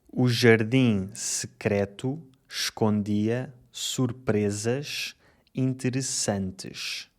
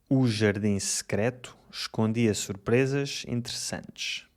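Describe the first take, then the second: First: The sentence is spoken slowly. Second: The sentence is spoken fast. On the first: "Primeiro, devagar" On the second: "Agora mais rápido"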